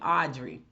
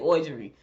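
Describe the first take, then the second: First: It is said in a deep Southern accent. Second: It is said in the speaker's own accent.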